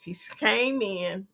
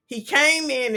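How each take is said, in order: First: Came in said slowly and quietly; slow, drawn-out description. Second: Said in the usual way. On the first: Shown as a demonstration. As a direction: spell out came in slowly, softly, for a visual. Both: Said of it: "I'm giving you a visual best I can".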